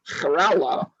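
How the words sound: The name is said with an Arabic pronunciation. "the Arabs pronounce it"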